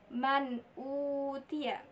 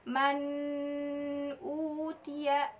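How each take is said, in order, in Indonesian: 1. Bunyi n dibaca jelas dan terpisah. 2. Bunyi n menyatu dengan bunyi berikutnya. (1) "Bacaan yang benar adalah man utia" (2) "jangan dibaca man utia, salah"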